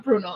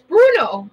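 First: Said in the usual way. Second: Bruno pitched higher and louder; stress on Bruno. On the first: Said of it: "it's Bruno, not Bruno". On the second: Shown as a demonstration. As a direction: punch the name Bruno. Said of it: "not Bruno".

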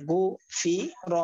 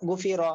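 First: "গু ফি র" slowly, syllable by syllable; teacher splitting "গু ফি র" with small gaps; broken-up syllables. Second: "গু ফি র" run together as one word; "গু ফি র" read whole after splitting; joined-up word. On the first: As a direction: separate each part of "গু ফি র". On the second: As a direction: blend "গু ফি র" without gaps. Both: Shown as a demonstration. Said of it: "আপনারা ভাঙ্গা উচ্চারণ করবেন".

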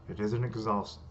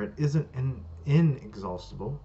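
First: Said in the usual way. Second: "inexhaustible" with its first syllable "in" punched; stress on "inexhaustible". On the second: Acted. Correcting a misread word, stress on the "in" of "inexhaustible". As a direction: lean on the "in" of "inexhaustible".

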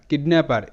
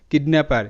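No difference in how they are said.

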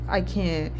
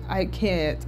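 The two takes are said the same way.

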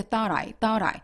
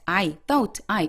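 First: "thought I" joined as one word; linked sounds. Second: "thought" and "I" each said apart; separated words. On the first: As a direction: run "thought" into "I" with a soft tapped t. ("thought I"를 끊지 말고 한 단어처럼) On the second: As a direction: stop between "thought" and "I". ("thought"와 "I"를 하나씩 끊어서) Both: Shown as a demonstration. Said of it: "끊지 마시고".

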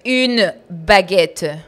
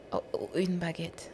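First: Very slow, loud "Une baguette", hammered out; angry correction. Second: Hushed, slow, faltering echo; meek repetition. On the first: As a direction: correct me crossly, stretching every word. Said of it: "pero con rabia". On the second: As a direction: repeat it small and soft after a scolding. Meek reply after angry correction. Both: Retold or imitated.

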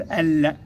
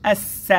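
First: ال with the L fully sounded; wrong pronounced lam. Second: الس with no L, vowel straight into a long S; silent lam pronunciation. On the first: Teacher showing pupils what not to say, sounded lam. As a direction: say ال ending on a clear, held L. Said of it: "لا نقول ال". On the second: Teacher correcting pupils on the sun letter, silent lam. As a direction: hold the doubled S in الس, skipping the L. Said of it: "وإنما نقول الس". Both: Shown as a demonstration.

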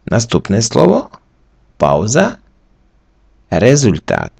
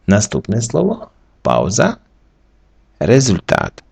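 The two takes are said the same way.

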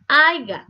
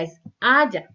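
First: "Aiga" loud and high, as the error; wrong word. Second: Said in the usual way. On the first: Shown as a demonstration. Teacher showing a common error, loud. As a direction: punch out "Aiga" like someone who says it. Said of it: "no es aiga".

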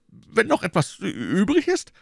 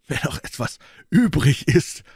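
First: High-pitched anxious stammer. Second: Mocking. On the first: Innkeeper echoes Athos in dread, stammering. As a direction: trip over the word, rattled and high. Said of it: "stammelte er". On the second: Athos taunts from inside the cellar, mocking. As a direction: stretch the key word mockingly, pitched up. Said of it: "murmelte Athos mit höhnischer Stimme". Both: A narrator's reading.

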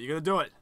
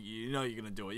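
First: "You're gonna do it" pushed louder, rising on "do"; emphatic goading. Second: Said in the usual way. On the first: Acted. Player goading the character, "gonna do it" said louder and emphatic. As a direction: egg him on, punching "gonna do it" loudly.

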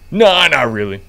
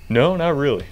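First: Loud cop voice. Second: Said in the usual way. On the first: Pretend. Officer echoes clerk's reply, louder.

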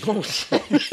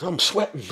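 First: Laughing realization. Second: Said in the usual way. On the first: Real, not acted.

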